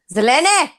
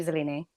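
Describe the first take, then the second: First: Loud, drawn-out call of the name. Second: Said in the usual way. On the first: Real, not acted. Host summoning Zelene, loud call. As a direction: call her name out sharply louder.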